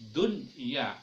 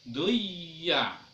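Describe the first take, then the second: First: The n sound is pronounced clearly. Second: The n sound is dropped and merged away. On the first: The speaker calls it right. "kita membacanya seperti idhar" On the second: The speaker calls it wrong. "kita tidak boleh membacanya duya"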